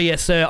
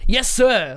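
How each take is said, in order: First: It is said flatly and dutifully, without excitement. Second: It is said eagerly, with excitement and energy. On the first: He is simply obeying an order. "It's not just like, sir, yes sir, I am obedient" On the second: He is eager to go and do it. "has a lot of enthusiasm and emotion behind it"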